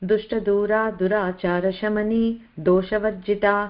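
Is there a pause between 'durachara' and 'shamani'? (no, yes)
no. Durachara and shamani run together without pause. The name is kept whole. The speaker calls it right. "So చదివేటప్పుడు"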